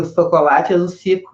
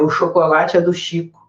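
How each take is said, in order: First: The ch sound in Chico comes out distorted. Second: The ch sound in Chico is said clearly. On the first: The speaker calls it wrong. "Que vai sair o chocolate é do Cico" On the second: The speaker calls it right. "repete isso aqui que o tio vai te dizer"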